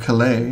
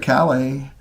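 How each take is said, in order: First: The stress falls where French speakers put it. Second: The stress falls where British speakers put it. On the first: The speaker calls it right. "excuse me" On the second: The speaker calls it wrong. "the British put the emphasis on the wrong syllable"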